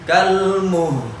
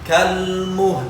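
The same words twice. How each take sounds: First: The word is drawn out too long. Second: The word is kept short, all sounds audible. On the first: The speaker calls it wrong. "Tidak boleh dibaca panjang, bukan kalmuh" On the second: The speaker calls it right. "h dan la tetap terdengar walaupun la-nya lebih rendah suaranya"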